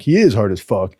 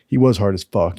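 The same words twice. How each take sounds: First: "is" stressed to fix tense, present. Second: "was" stressed, past tense, before the correction. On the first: Teller correcting himself, stress on "is". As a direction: correct yourself, hitting "is". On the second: Teller about the swimmer, stress on "was". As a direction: lean on "was". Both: Shown as a demonstration.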